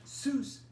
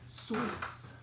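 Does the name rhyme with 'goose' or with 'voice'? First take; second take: goose; voice. First: The name rhymes with goose. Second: The name rhymes with voice. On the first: This is the Americanized form of the name. "isn't even the original pronunciation" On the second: This is the original German form of the name. "Rhymes really? With voice. Apparently that's German"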